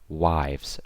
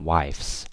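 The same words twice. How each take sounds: First: The word ends with a z sound. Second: The word ends with an s sound. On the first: The speaker calls it right. "So that final S is always pronounced as Z" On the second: The speaker calls it wrong. "not wives"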